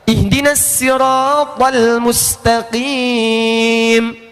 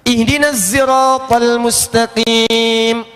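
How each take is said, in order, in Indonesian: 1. Sirat diawali bunyi s ringan dan biasa. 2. Sirat diawali bunyi z berdengung.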